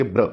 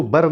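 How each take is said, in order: First: ब्र with no vowel between ब and र; one-beat ब्र; joined blend. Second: बर with a vowel between ब and र; बर, consonants not joined; wrong split blend. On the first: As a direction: run ब straight into र in ब्र. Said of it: "इसको कहेंगे ब्र". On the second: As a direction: open up बर into "bur". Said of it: "इसको बर नहीं कहना है". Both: Shown as a demonstration.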